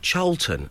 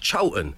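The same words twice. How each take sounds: First: The name is pronounced the way it is spelled. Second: The name is pronounced in the local way. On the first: The speaker calls it wrong. "don't you dare pronounce it like it's spelt" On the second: The speaker calls it right. "it's Cholton"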